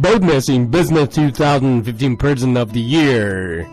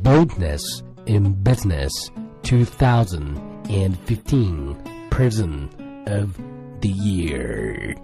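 First: It is read at a fast pace. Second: It is read at a slow pace.

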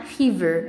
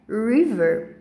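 First: It begins with a breathy H-like sound. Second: It begins with an English R sound. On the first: The speaker calls it wrong. "a palavra rio não é river" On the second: The speaker calls it right. "é river"

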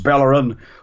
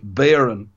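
First: The L sounds are clearly pronounced. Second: The L sounds are left out. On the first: The speaker calls it wrong. "we were calling him Bellerin" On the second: The speaker calls it right. "no need to pronounce the L's at all"

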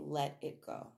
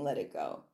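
First: The phrase is said plainly, without extra force. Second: The phrase is said with strong, forceful emphasis.

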